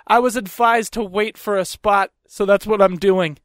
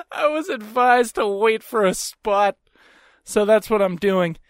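First: Matter-of-fact retold comeback; smug retort. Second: Slow retort through laughter; amused smug retort. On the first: Man at car window answers woman, smug and matter-of-fact. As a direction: throw her rule back at her, deadpan. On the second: Retold or imitated. Man relishes his comeback to woman, laughing and smug. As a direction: repeat the comeback slowly, tickled by it.

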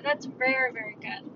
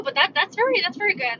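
First: Much softer, trailing away; soft echo. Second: Said in the usual way. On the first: Real, not acted. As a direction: repeat it under your breath, fading. Softer repeat of praise.

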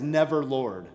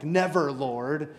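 First: Said in the usual way. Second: "Never, Lord" said very slowly, each word stretched, ending on a rise; drawn-out Never, Lord. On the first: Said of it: "I love that phrase". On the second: Shown as a demonstration. Preacher savouring Peter's ironic protest, slow stretched rise. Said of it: "that's a little bit ironic".

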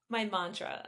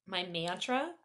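First: "mantra" with an open "ah", MAHN-truh, falling; corrected pronunciation. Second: Questioning "mantra" with a flat "man" vowel; accented slip. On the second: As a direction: repeat the slip, "mantra" as MAN-truh, rising. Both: Real, not acted. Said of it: "trying to do accents and then not accents".

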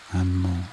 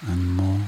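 No difference in how they are said.

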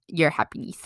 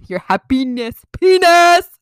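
First: Said in the usual way. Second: "happiness penis" blurted high and very loud; mock your own slip, shouting "penis" at the end; exaggerated accent slip. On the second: Shown as a demonstration. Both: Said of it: "my accent".

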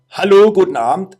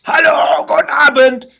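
First: Said in the usual way. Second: High, loud yelled greeting; retold shout. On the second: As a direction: yell it hard, nobody's hearing you. Ruft in die Sprechanlage. (laut nachgespielter Schrei)

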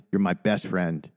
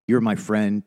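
First: "best" leaned on, softer and lower; tender stress on best. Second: Said in the usual way. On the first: Real, not acted. Telling his co-host he is his best friend, softly stressing "best". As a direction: press gently on "best". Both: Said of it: "try not to get emotional".

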